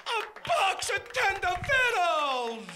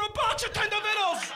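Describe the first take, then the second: First: Slow, high, loud wail of disbelief; drawn-out incredulous repeat. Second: High, loud outburst on the punchline; incredulous punchline. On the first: Comedian repeating the punchline to the crowd, drawn-out disbelief. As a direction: stretch every word out at a raised pitch. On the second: Comedian ending the cat story for the crowd, incredulous outburst. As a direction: punch out "box of Tender Vittles" high and loud. Exasperated punchline, first take. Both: Acted.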